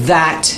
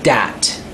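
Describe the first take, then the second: First: The word begins with a soft 'th' sound. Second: The word begins with a hard 'd' sound. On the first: The speaker calls it right. "instead of saying that" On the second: The speaker calls it wrong. "she was saying dat"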